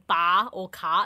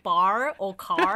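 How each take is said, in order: First: The final R sounds are dropped, Australian style. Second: The final R sounds are curled, American style. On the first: The speaker calls it wrong. "I don't like saying bar or car. It just sounds ugly" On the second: The speaker calls it right. "So I say bar or car instead"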